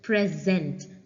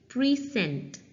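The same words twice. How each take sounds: First: The stress is on the second syllable. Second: The stress is on the first syllable. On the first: It is a verb. "Now we are giving stress to zent" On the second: It is a noun. "we are giving stress to pre"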